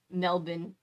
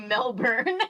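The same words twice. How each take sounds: First: It is said imitating the local accent. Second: It is said in an American accent. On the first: "that's like copying the accent Melbourne" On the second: "I say Melbourne"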